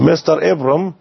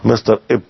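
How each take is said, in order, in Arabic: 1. يُقال الاسم مختصراً، حُذف المقطع الأوسط. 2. لم يبقَ إلا المقطع الأول من الاسم. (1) "الآن الكلمة أصبحت في الستين" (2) "ماتت"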